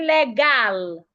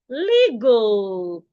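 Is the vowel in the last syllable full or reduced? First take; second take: full; reduced. First: The last syllable has a full vowel. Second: The last syllable has a reduced schwa vowel. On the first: The speaker calls it wrong. "I wouldn't say legal" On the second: The speaker calls it right. "The A there makes a sure"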